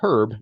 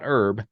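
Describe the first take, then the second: First: The initial H sound is clearly pronounced. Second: The initial H sound is dropped entirely. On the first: The speaker calls it right. "I say herb, because it's got a fucking H in it" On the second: The speaker calls it wrong. "not herb"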